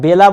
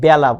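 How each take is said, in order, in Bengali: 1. প্রথম স্বরধ্বনিটি উচ্চারিত হয় 'bet'-এর 'e'-এর মতো। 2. প্রথম স্বরধ্বনিটি উচ্চারিত হয় 'cat'-এর 'a'-এর মতো। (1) "বেলা আমরা লিখি" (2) "বাস্তবে উচ্চারণ করি কিন্তু ব্যা"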